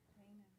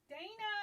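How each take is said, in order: First: It is said quietly. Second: It is said loudly.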